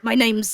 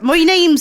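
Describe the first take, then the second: First: It is said in the speaker's natural voice. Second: It is said in a put-on character voice.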